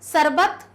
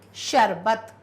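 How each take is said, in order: First: The first consonant is a plain 's' sound. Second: The first consonant is an 'sh' sound. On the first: The speaker calls it wrong. "सरबत नहीं" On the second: The speaker calls it right. "स का प्रयोग श"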